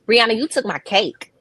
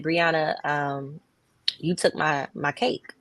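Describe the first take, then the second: First: It is said in a harsh, confrontational tone. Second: It is said in a gentle, kind tone.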